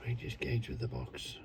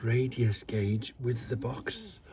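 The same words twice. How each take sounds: First: Awed whisper. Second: Said in the usual way. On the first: Real, not acted. Gasp, then repeats in awe.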